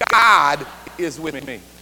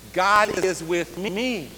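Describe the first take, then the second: First: The stress falls on the word God. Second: The stress falls on the word me. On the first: "we're going to emphasize the first word" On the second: "Fourth word"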